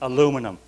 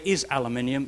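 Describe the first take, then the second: First: It has four syllables, ending in -um. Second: It has five syllables, ending in -ium. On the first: The speaker calls it wrong. "You Yanks mispronounce it. ... You're wrong" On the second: The speaker calls it right. "It, by the way, is aluminium"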